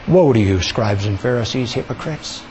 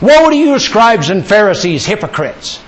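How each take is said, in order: First: It is said tenderly and caringly. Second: It is said harshly and condemningly.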